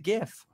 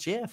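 First: It begins with a hard G sound. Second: It begins with a soft J sound. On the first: "Because it's like graphics" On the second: "G's that sound like a J"

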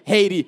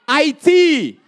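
First: The name is pronounced the English way. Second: The name is pronounced the French way. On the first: The speaker calls it wrong. "we know we're not going to say Haiti" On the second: The speaker calls it right. "the right way in French accent"

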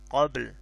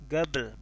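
First: The word begins with a deep Q sound. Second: The word begins with a hard G sound. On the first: This is the classical form. The speaker calls it wrong. "Gabel bukan qabl" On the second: This is the colloquial dialect form. The speaker calls it right. "jadi lebih ke huruf G kalau dalam bahasa Amiyah"

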